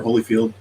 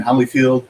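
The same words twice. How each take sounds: First: "Holyfield" with a long o, like holy; alternative pronunciation. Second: "Holyfield" with a short first vowel, like holly; first pronunciation guess. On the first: Podcaster offering another guess at the surname, "Holyfield" said like holy-field. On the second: Podcaster unsure of a colleague's surname, "Holyfield" said like holly-field. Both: Shown as a demonstration. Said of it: "how he pronounced that last name".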